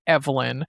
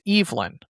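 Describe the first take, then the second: First: The name is pronounced the usual female way. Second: The name is pronounced the male way. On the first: The name belongs to a woman. The speaker calls it wrong. "they do pronounce it Evelyn" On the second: The name belongs to a man. The speaker calls it right. "say it as a man's name as Evelyn"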